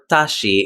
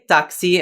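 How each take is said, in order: First: The middle consonant sounds like sh. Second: The middle consonant sounds like ks. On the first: The speaker calls it wrong. "or tashi in Portuguese" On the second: The speaker calls it right. "This is why we say taxi"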